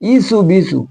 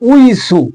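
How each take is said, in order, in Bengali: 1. শব্দাংশটি একটি সাধারণ “ee” ধ্বনি দিয়ে শুরু হয়। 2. শব্দাংশটি একটি “wee” ধ্বনি দিয়ে শুরু হয়। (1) "অধিকাংশ উলামায়ে সম্প্রদায় পড়ে আমি দেখেছি ইসু বিসু, ইয়ে একদম বিলকুল ভুল।" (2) "এখানে অরিজিনাল ভাষা হচ্ছে উইসু।"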